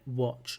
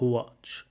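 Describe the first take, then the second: First: It starts without any h sound. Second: It starts with an added h sound. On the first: The speaker calls it right. "watch has no h sound in there" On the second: The speaker calls it wrong. "not watch"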